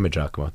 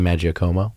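First: The name is said further from its spelling. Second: The name is said closer to its spelling. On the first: This is how the speaker's own family says it. "So we say Maggiacomo" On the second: This is how another branch of the family says it. "They say Maggiacomo. It's a little bit more phonetic"

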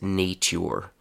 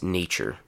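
First: The middle consonant is a plain t sound. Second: The middle consonant is a ch sound. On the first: The speaker calls it wrong. "No one says" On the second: The speaker calls it right. "Everyone says"

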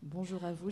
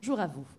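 First: It is said more quietly and calmly. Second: It is said loudly and excitedly.

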